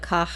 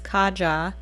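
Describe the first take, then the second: First: The name is said with a Spanish pronunciation. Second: The name is said with an English pronunciation. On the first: The speaker calls it wrong. "My Spanish speaking always wants to kick in and I want to call it Caja" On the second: The speaker calls it right. "I'm pretty sure it's Kaja"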